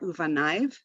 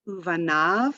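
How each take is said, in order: First: The word ends with the sound 'aiv'. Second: The word ends with the sound 'av'. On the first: The speaker calls it wrong. "not uvanaiv" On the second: The speaker calls it right.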